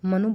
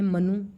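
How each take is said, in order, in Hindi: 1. अंतिम 'u' स्वर छोटा है। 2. अंतिम 'u' स्वर बड़ा है। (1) "मनु बोलना चाहिए" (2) "बोल देते हैं मनु"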